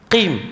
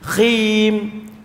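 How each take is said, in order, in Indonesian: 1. Dimulai dengan bunyi hambat yang dalam. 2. Dimulai dengan bunyi frikatif yang serak.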